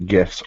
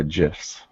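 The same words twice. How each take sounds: First: "gifs" with a hard g, as in gift. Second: "gifs" with a soft g, like jifs. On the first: Presenter teasing both pronunciations to co-hosts, "gifs" with hard g. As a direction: say "gifs" starting with a hard g sound. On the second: Presenter teasing both pronunciations to co-hosts, "gifs" with soft g. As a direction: say "gifs" starting with a j sound. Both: Shown as a demonstration. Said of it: "You had to throw that in there".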